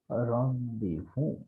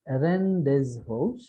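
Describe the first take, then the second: First: The word is said with some letters left silent. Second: The word is said letter by letter as spelled. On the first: The speaker calls it right. "the pronunciation here is rendezvous" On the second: The speaker calls it wrong. "it is not rendezvous"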